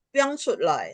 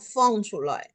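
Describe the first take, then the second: First: The first word begins with a p sound. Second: The first word begins with an f sound. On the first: This is how speakers in some regions say it. "ada orang mengucapkan piong" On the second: This is how speakers in other regions say it. "Ada yang orang feng shutloi"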